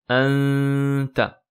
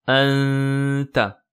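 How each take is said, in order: No difference in how they are said.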